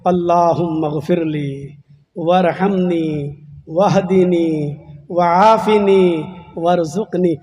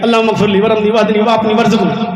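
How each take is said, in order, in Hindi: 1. यह सच्चे दिल से, विनम्र और गिड़गिड़ाते लहजे में कही जाती है। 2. यह हल्के, मजाकिया और बेपरवाह लहजे में कही जाती है। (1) "ऐसे मांगे" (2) "ऐसे नहीं ... ये तो मजाक कर रहे हैं आप"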